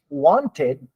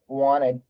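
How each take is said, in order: First: The T sound is clearly pronounced. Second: The T sound is dropped. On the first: "The the original pronunciation is wanted" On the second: "many Canadians do not say wanted. They say wanted ... The T is gone"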